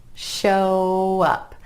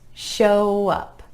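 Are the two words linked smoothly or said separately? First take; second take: linked; linked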